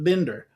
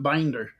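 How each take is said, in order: First: The first vowel is short, as in 'bin'. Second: The first vowel is long, as in 'bind'. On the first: This is how the speaker's own family says it. "On this side of Colorado, we pronounce it Binder" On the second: This is how relatives elsewhere say it. "On the other side of Colorado, they pronounce it Binder"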